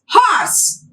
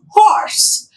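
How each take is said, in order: First: The starting h sound is pronounced. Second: The starting h sound is silent. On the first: The speaker calls it wrong. "We as native speaker pronounce it as horse, but it's not that" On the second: The speaker calls it right. "H is silent"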